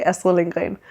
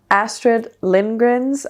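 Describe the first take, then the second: First: "Astrid Lindgren" with native Danish sounds; Danish pronunciation. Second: "Astrid Lindgren's" said slowly, anglicized; English pronunciation. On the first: Book vlogger showing viewers the Danish way, Danish pronunciation. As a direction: say "Astrid Lindgren" as a Dane would. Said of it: "In Danish, you would say". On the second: Book vlogger attempting the author's name for viewers, English pronunciation. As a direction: try "Astrid Lindgren's" with English sounds, a little unsure. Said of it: "how to say it with an English accent". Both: Shown as a demonstration.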